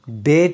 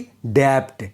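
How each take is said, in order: First: The b is silent. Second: The b is pronounced. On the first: The speaker calls it right. "इसे हम डेट बोलते हैं" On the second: The speaker calls it wrong. "ना कि डेप्ट"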